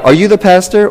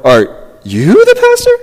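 First: Said in the usual way. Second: "you" shoots way up high; mock-disbelieving question, loud high "you"; incredulous stress on YOU. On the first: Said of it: "I hear that a lot". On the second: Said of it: "asking it this way".

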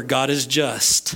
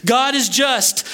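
First: Said in the usual way. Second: Repeated with weight, each word pressed; emphatic restatement. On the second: Shown as a demonstration. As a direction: drive home "God is just" word by word. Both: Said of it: "'Cause we haven't listened".

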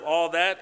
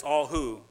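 First: THAT stressed, pitch held up. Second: WHO set out as the replacement, falling; stress on WHO. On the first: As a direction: lean on THAT as the word being replaced. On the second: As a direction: close firmly on WHO. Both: Shown as a demonstration. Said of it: "instead of all that, it's all who".

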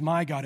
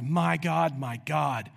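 First: Said in the usual way. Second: "My God, my God" with the first pair punched, the repeat falling; double emphasis. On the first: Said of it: "So it's not just". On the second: Shown as a demonstration. Preacher showing the doubled "My God, my God", emphatic. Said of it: "it's meant for double emphasis".

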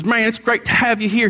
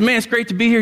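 First: A hint of a Southern pastor; Southern accent. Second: Said in the usual way. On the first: Pastor imitates a Southern pastor greeting him, light Southern accent. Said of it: "A little Southern accent". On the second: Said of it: "And I said, I said".

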